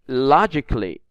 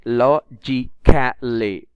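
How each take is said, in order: First: No extra vowel is sounded before the -ly. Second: An extra vowel is sounded before the -ly. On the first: The speaker calls it right. "We read it like logically. So the A is silent" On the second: The speaker calls it wrong. "We don't read it like logically"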